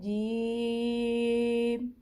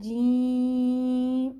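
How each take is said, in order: First: The sound comes from the middle of the mouth. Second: The sound goes through the nose. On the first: The speaker calls it right. "मुंह के दरमियान में से हमने पढ़ना है" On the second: The speaker calls it wrong. "कुछ लोग पढ़ते हैं"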